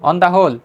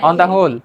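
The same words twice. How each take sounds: The two takes are said the same way.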